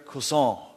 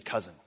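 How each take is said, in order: First: It is pronounced the French way. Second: It is pronounced the English way. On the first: "that's how you say it in French" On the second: "We would just say cousin"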